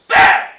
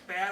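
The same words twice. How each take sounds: First: The vowel is shouted loudly and aggressively. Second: The vowel is said at normal volume.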